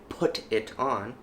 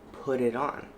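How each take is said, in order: First: The T in 'put' is a clear T. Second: The T in 'put' is a soft flap. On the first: "Instead of saying" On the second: "It's a little bit more soft on the T in put"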